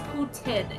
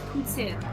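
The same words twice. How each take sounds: First: The middle consonant is a plain T sound. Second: The middle consonant is a TS sound. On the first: The speaker calls it wrong. "It's not pronounced Putin" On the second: The speaker calls it right. "Like the T S sound in boots"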